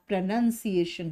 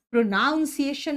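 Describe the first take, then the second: First: "प्रोनंसिएशन" with a short "नं", not "नाउं"; clearly said "प्रोनंसिएशन"; correct pronunciation. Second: "प्रोनाउंसिएशन" with "नाउं" in the middle, stressed; the wrong "प्रोनाउंसिएशन" like the verb pronounce; wrong pronunciation. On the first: Teacher modelling the right word for students. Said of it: "होता है". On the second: Teacher showing students the common wrong form. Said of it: "नहीं होता". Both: Shown as a demonstration.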